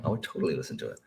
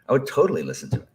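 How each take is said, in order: First: Said in the usual way. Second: Higher, louder, quicker repeat; fast, eager, higher and louder restatement; excited repeat. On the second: Real, not acted. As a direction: blurt it again with eager emphasis.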